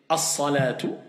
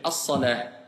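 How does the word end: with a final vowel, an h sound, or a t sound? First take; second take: final vowel; h sound. First: The word ends with a t and a final vowel. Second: The word ends with a soft h sound. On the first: "soit je vais dire as-salatu" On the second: "je vais dire as-salah"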